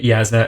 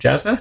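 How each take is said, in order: First: The name begins with a Y sound. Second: The name begins with a J sound. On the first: This is the official audiobook pronunciation. "the official pronunciation in the audiobooks is Yasna" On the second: This is how a reader guessed it from the book. "I always read her, this character's name as Jasna"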